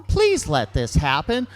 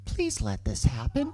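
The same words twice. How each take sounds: First: More insistent, punched mock plea; pleading. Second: Low, hushed mock plea; pleading. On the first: Boyfriend begs his girlfriend to allow it, insistent pleading. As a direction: beg with a hard push on please. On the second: Boyfriend silently begs his girlfriend to allow it, low pleading. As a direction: beg under your breath. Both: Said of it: "with these pleading eyes, like".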